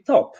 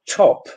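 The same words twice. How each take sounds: First: It is said with a Polish accent. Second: It is said with a standard English accent. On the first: "it will be top" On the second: "instead of top"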